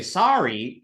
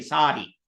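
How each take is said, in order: First: Sari with a plain English r; American sari. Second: Sari with a retroflex da flap; Hindi sari. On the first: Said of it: "we Americans hear it sari". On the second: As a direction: Hindi sari, the r flapped as a curled da. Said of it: "the Hindi word". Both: Shown as a demonstration.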